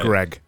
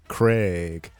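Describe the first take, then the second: First: The vowel is short and clipped. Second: The vowel is long, like a strong A. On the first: The speaker calls it wrong. "Americans say Greg, essentially" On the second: The speaker calls it right. "You extend, yeah, extend the vowel"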